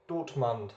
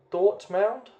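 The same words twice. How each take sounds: First: Dortmund. said quietly with a falling, final tune; settled answer. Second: Dortmund? asked with a sharp high rising question tune; unsure questioning try. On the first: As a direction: land Dortmund as a settled statement, pitch dropping. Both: Real, not acted. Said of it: "I'm not sure how you pronounce that".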